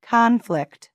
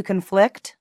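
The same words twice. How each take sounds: First: Conflict as a noun, CON-flict; high start on "conflict", falling away; stress on first syllable. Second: Conflict as a verb, con-FLICT; stress on second syllable. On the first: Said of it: "Noun, conflict". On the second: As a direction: stress the end of "conflict", rising. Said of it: "Verb, to conflict". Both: Shown as a demonstration.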